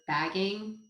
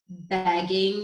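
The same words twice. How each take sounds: First: The vowel is a plain short 'a'. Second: The vowel sounds close to an 'e'. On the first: "instead of" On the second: "I just pull it out like an E almost"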